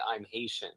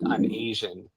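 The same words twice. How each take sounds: First: "Haitian" said clearly, starting with a sounded H, HAY-shun; correct pronunciation. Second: "Asian" said AY-zhun with no H sound; mispronunciation shown. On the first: Correcting a language partner's pronunciation, soft clear model. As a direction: model "I'm Haitian" with a crisp H, said softly. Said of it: "you should work on pronouncing". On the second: Showing a partner how his Haiti claim sounds, AY-zhun with no H. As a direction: show how "I'm Asian" comes out, with the H dropped. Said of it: "the way you pronounce it sounds like". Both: Shown as a demonstration.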